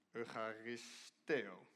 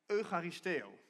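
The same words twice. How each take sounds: First: Eucharisteo said slowly, syllable by syllable; careful pronunciation. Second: Said in the usual way. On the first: Shown as a demonstration. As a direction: sound out Eucharisteo slowly, unsure of it. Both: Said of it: "Geen idee hoe je het uitspreekt".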